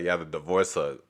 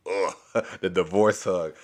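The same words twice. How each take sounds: First: Said in the usual way. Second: Laughing. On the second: Real, not acted. Amused echo of the joke.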